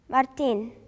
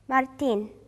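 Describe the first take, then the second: The two takes are said the same way.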